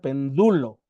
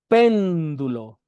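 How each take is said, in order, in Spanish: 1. La tónica está en la segunda sílaba. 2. La tónica está en la primera sílaba. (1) "la última sílaba con acento debía haber sido du, para que sonara algo así" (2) "la última sílaba tónica que tenemos en este verso es este, es esta pen"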